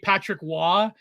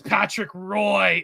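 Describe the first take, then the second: First: The surname sounds like 'wah', French style. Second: The surname rhymes with 'boy', English style. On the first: This is the Quebec way to say the name. "he like refuses to say Patrick Waugh" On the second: The name is deliberately anglicized out of dislike. "He says Patrick Roy"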